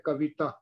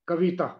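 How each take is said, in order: First: The vowel after v is short but leans long. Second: The vowel after v is short but leans long.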